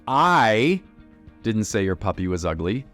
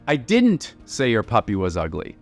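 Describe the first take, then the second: First: The strongest stress falls on the word I. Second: The strongest stress falls on the word didn't. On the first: Someone else said it. "someone else did" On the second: The claim that it was said is wrong. "you're wrong. I didn't say it"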